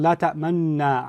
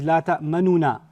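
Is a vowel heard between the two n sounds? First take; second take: no; yes. First: No vowel is sounded between the n sounds. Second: An u vowel is sounded between the n sounds. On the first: "make the dhamma without pronouncing it" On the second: "pronounce it with a dhamma"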